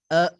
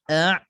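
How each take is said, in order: First: The throat is released, giving a plain glottal onset. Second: The throat is slightly pressed in the middle. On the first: It turns into a different letter, hamzah. The speaker calls it wrong. "Kalau kita lepaskan" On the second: It is the intended letter, Ain. The speaker calls it right. "tekankan sedikit di tengah"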